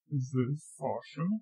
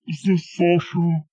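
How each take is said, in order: First: Low, soft question. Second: Fuller-voiced question; firmer question. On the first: Pretend. Rehearsing a fake caller, soft low question. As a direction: ask it quietly in a deepened voice. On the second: Rehearsing a fake caller, firmer second try. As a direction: ask it out more firmly. Repeats the rehearsed greeting more forcefully.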